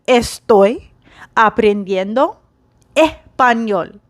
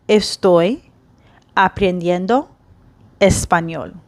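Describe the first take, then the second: First: The S sounds are dropped. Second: Every S sound is clearly pronounced. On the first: This sounds like a certain native speaker. "they just drop the S" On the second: This is the textbook form. "the textbook way for me to say I am learning Spanish"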